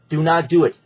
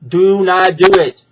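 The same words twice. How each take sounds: First: Said in the usual way. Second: "Do not do it" said again much louder, pressing the point; a loud, insistent repeat of "Do not do it"; louder warning. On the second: Real, not acted. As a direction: lean in and make the "do" land as a warning. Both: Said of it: "Brandon, listen to me".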